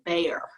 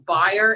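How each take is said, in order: First: The name is said as Bayer. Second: The name is not said as Bayer. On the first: This is how other people mispronounce the name. The speaker calls it wrong. "everybody pronounces it Bayer" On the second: This is the name's real pronunciation. The speaker calls it right. "Byer is my maiden name"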